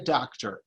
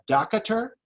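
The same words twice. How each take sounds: First: No extra vowel is added, making two syllables. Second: An extra vowel is added, making three syllables. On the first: The speaker calls it right. "It's two syllables" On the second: The speaker calls it wrong. "Do you go see a doctor? No"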